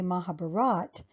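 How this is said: The final a sound is dropped.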